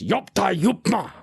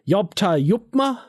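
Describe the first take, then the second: First: It is said in a rough, gravelly voice. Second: It is said in a smooth, plain voice.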